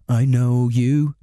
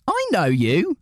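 First: The voice falls at the end, a statement. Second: The voice rises at the end, a question.

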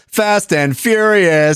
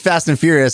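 First: It is said in a lively, excited way. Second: It is said in a plain, calm way. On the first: They are definitely having a party tonight. "And you go fast and furious, I'm like, oh, tonight it's on" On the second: It is a casual mention. "If you just say fast and furious, I'm like, yeah, cool"

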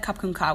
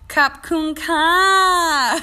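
First: It is said short, with little energy. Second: It is drawn out with lots of oomph.

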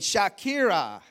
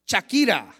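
First: The name is said in a plain English way. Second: The name is said with Spanish flair.

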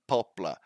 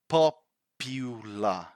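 First: The middle vowel is dropped, giving two syllables. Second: The middle vowel is pronounced, giving three syllables. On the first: The speaker calls it wrong. "Popular or poplar, poplar, but we need to pronounce that U here" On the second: The speaker calls it right. "So it's popular"

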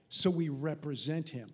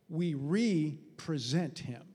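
First: Represent is said as one ordinary, smooth word. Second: Re- is set apart and stressed before present. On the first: "But he didn't say it like that" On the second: "He said"

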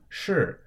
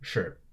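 First: It has a sharp falling fourth tone. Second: It is light and short with neutral tone. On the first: "S-H-I either in the fourth tone" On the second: "or S-H-I in the neutral tone"

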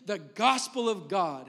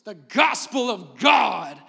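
First: It is read in a plain, ordinary voice. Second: It is said in a booming, dramatic preacher voice.

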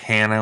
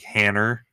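First: It ends in a plain vowel, American style. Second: It ends with an added r, British style.

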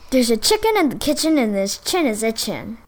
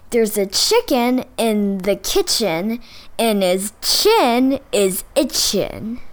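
First: It is said at a moderately fast pace. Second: It is said slowly and carefully.

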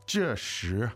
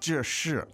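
First: The second syllable has a rising second tone. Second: The second syllable has a falling fourth tone. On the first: The speaker calls it right. "it's fourth and second" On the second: The speaker calls it wrong. "It's not... fourth and fourth"

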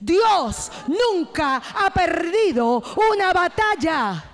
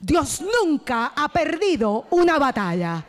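First: It is shouted at full volume. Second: It is said loudly and with force.

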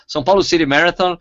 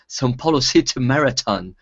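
First: It is said with an American accent. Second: It is said with a British accent.

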